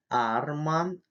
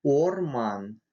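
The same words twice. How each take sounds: First: Арман with an open, unrounded A first; open A sound. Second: Орман with a clear rounded O, never an A; unreduced O. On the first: Teacher contrasting dream with forest, арман with open A. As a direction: say арман with a clear А in place of О. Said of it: "иначе может измениться смысл слова". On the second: Teacher contrasting forest with dream, Орман with full O. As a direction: say Орман keeping the first О fully rounded. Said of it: "не переходит звук". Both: Shown as a demonstration.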